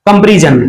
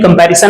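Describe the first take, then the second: First: The second vowel sounds like the 'e' in bed. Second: The second vowel sounds like the 'a' in cat. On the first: The speaker calls it wrong. "बहुत सारे लोग जो है आपको जो है इसे बोल देते हैं" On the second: The speaker calls it right. "कंपेरिजन नहीं कंपैरिजन है"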